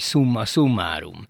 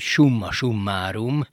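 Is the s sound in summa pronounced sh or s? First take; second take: s; sh. First: The s is pronounced as a plain classical s. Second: The s is pronounced in the traditional Hungarian way. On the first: It sounds like showing off knowledge of Latin. The speaker calls it wrong. "Nekem az egy kicsit olyan okoskodó" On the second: It follows the old home-grown Latin tradition. The speaker calls it right. "az én szívemnek kedves a régi módi hazai latinság"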